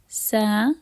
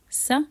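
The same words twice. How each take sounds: First: The vowel after the s is held long. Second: The vowel after the s is cut short. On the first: "Those are the long vowels" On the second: "And with the short ones"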